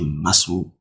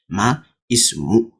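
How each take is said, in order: First: The 'i' is skipped so ma joins directly to smu. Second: The 'i' of ismu is pronounced as a separate syllable. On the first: "So you say Masmu" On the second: "That's how it should be spelled"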